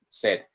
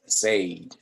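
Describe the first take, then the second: First: The vowel sounds like Spanish 'sed'. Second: The vowel does not sound like Spanish 'sed'. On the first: The speaker calls it right. "como cuando uno tiene sed" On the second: The speaker calls it wrong. "no me vayan a decir"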